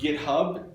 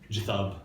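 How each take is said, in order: First: It begins with a hard g sound. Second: It begins with a soft j sound. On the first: "what has often been called" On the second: "I think it's definitely got to be a soft G"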